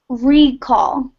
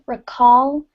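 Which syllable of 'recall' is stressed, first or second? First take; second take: first; second. First: The stress is on the first syllable. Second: The stress is on the second syllable. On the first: It is used as a noun. "when it's the noun" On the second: It is used as a verb. "It's an emphasis on the end"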